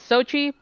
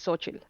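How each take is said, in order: First: The name is shortened, without the final ending. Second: The name is said in full, with its ending. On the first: This is the casual way the speaker will say it. "I'm gonna be saying it as Sochi" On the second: This is the technically complete way to say it. "technically that's the full the way you say it"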